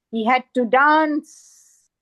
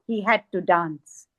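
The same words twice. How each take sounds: First: Slow, drawn-out DANCE in recitation; emphatic poetic refrain. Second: Low, resigned-sounding recited line; subdued poetic refrain. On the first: Poet repeats the dancer's plight, emphatic slow recitation. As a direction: stretch out "dance" with weight. Repeated line, said with more weight. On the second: Poet recites the dancer's plight, subdued recitation. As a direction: let the line drop low. Repeated line within the poem. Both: Acted.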